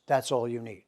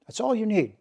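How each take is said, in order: First: Said in the usual way. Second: "all" hit high and hard; stress on all. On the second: Shown as a demonstration. Teacher driving home to students that it's all you need, stressing "all". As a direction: lift the word "all" well up in pitch.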